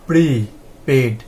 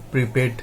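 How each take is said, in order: First: prepaid slowly, pre and পেড held apart; split into syllables. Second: Said in the usual way. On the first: Shown as a demonstration. Teacher showing prefix and root, slowly split apart. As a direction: say prepaid in two separate, slow parts. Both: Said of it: "prefix দিয়ে উচ্চারণগুলো খুব সহজে".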